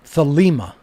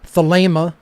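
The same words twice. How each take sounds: First: The second syllable lacks a long A vowel. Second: The second syllable has a long A vowel. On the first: The speaker calls it wrong. "not thelema" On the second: The speaker calls it right. "with a long A sound in the uh, second syllable"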